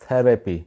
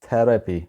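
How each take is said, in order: Both takes have the same delivery.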